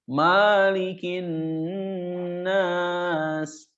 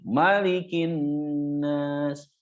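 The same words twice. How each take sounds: First: The first vowel is drawn out long. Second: The first vowel is kept short. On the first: The speaker calls it wrong. "Kadang suka ada yang baca maknanya jadi panjang" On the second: The speaker calls it right. "Maknya dibaca pendek"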